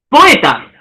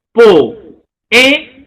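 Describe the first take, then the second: First: Said in the usual way. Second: Po-e-ta with a clear break between each syllable; syllabified. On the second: Shown as a demonstration. Teacher separating the vowels for students, syllable by syllable. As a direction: split Po-e-ta into three separate beats. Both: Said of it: "el silabeo".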